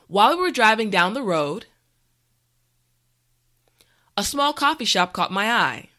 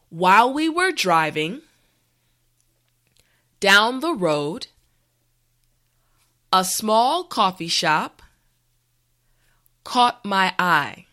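First: The sentence is said at a natural speed. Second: The sentence is said slowly and carefully. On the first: "this time we will go at a more natural pace" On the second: "this time repeat after me"

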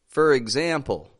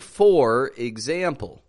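First: The word 'for' is reduced to a quick 'fur'. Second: The word 'for' is said fully and clearly. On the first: The speaker calls it right. "We pronounce this as fur when it's in the beginning of a sentence" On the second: The speaker calls it wrong. "I'm not saying for example. That's too clear"

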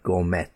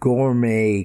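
First: The final T is pronounced. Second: The final T is silent. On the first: The speaker calls it wrong. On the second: The speaker calls it right.

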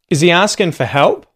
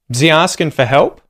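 First: 'Is he' is said fully as two words. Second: 'Is he' is reduced to a z sound. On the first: "I'll say them once with Z" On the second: "then the second time with Z"

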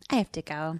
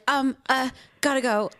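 First: It sounds casual and matter-of-fact. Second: It sounds flustered and hesitant.

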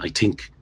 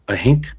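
First: Think begins with a sound other than h. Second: Think begins with an h sound. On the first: This is how outsiders stereotype Irish speech. "which people might characterize Irish people saying I think" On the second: This is how it is said locally. "When I was growing up in mid-Ulster, it was I think. H-I-N-K"

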